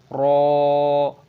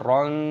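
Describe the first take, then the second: First: The syllable ends on a long open vowel. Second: The syllable ends with an added n sound. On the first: The speaker calls it right. "roknya dibaca panjang" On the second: The speaker calls it wrong. "jangan dibaca ron"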